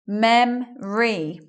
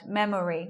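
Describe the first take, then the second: First: It is said with two syllables. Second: It is said with three syllables. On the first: The speaker calls it right. "We're not saying the O sound" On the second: The speaker calls it wrong. "We're not hearing it like that"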